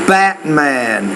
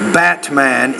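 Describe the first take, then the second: First: The T is made as a glottal stop. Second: The T is made as a full T. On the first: "in American English, we'll say" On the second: "if you pronounce it like"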